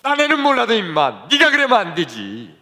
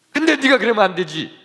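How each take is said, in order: First: Mild scolding. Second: Higher, stern reproach on 근데; scolding. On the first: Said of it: "하는 말씀이". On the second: Keeper scolds the narrator alone, raised stern voice. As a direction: scold him for shaming his father. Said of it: "나만 더 야단치는 거예요". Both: Retold or imitated.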